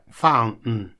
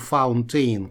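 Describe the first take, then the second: First: The T is dropped, with a catch after N. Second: The middle T is clearly pronounced as written. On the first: The speaker calls it right. "Они говорят так fountain" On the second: The speaker calls it wrong. "никак не fountain, как оно написано"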